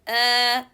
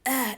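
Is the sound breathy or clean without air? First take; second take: clean; breathy. First: The sound is a clean catch, with no air. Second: The sound is breathy, with air pushed out. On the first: The speaker calls it right. "just sound, no air, and make the strength" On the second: The speaker calls it wrong. "We are not pushing air while we are reading Hamza. So don't say ah ah"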